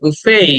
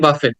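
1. শেষের 't' ধ্বনিটি নীরব। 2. শেষের 't' ধ্বনিটি উচ্চারিত হয়। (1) "the word should be pronounce like বুফে" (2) "অনেকে উচ্চারণ করে বাফেট, কিন্তু উচ্চারণটা বাফেট না"

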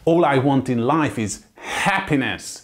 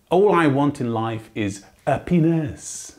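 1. A 'happiness'-ben lévő h egyértelműen ki van ejtve. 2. A 'happiness'-ben lévő h el van hagyva. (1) "És itt jó megnyomja a magyar a hát" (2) "ki fogja hagyni az első hákat"

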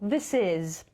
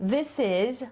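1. Te dwa słowa są połączone w jedno. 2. Te dwa słowa są połączone w jedno.

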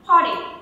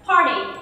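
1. Âm r được phát ra và âm t nghe như d. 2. Âm r được phát ra và âm t nghe như d.

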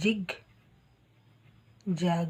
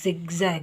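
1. ಪದ j ಶಬ್ದದಿಂದ ಶುರುವಾಗುತ್ತದೆ. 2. ಪದ z ಶಬ್ದದಿಂದ ಶುರುವಾಗುತ್ತದೆ. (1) "ಜಿಗ್ ಜಾಗ್ ಅಂತ ಬರಿತೇವೆ" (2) "ಝಿಗ್ ಝ್ಯಾಗ್ ಅಂತಲೇ ಹೇಳಬೇಕು"

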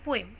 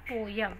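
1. उसके बाद हल्का 'e' स्वर आता है, बिना ग्लाइड के। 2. 'य' की ग्लाइड दोनों स्वरों को जोड़ती है। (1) "ए है, वो भी लाइटली बोलना है" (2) "दिस इज नॉट पोयम"

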